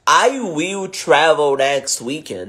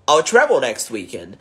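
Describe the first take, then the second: First: I will is said as two full words. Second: I will is shortened into one syllable. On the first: "Quando eu falo, por exemplo" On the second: "ao invés de falar I will, ele vai falar I'll"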